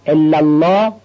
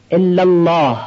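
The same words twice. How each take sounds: First: الله said with a weak, swallowed ending, as the wrong example; wrong way: الله cut short; wrong recitation. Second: الله said fully and clearly to the end; correct recitation. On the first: Teacher showing students the mistake to avoid, wrong الله. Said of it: "نشه". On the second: Teacher showing students the right way, clear الله. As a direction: pronounce الله in full, with a clear final falling stress. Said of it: "الله آخر جمله رو هم بیان بکنیم". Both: Shown as a demonstration.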